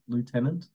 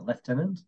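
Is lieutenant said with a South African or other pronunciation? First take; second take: Other; South African. First: It is said with a non-South African pronunciation. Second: It is said with a South African pronunciation. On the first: The speaker calls it wrong. "He refers to the lieutenant as lieutenant" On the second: The speaker calls it right. "South Africans would say lieutenant"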